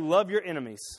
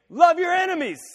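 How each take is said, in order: First: It is said calmly, at normal volume. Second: It is shouted loudly, like a scream.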